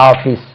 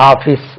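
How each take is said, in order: The two takes are said the same way.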